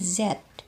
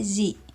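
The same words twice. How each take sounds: First: The letter is said in a British accent. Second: The letter is said in an American accent. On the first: "orang-orang uh, British ya uh, membacanya Z" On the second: "kita memakai aksen Amerika"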